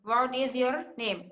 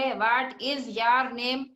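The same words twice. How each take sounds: First: Said in the usual way. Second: "your" said as a stretched "yaar"; slow, broken English with "your" turned into "yaar"; mispronounced English. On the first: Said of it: "English में देखिए आप कैसे पढ़ते हैं". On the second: Shown as a demonstration. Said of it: "अगर कोई ऐसे बोले".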